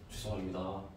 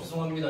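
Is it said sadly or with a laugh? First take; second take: sadly; with laugh. First: It is said slowly in a low, sad voice. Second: It is said while laughing slightly.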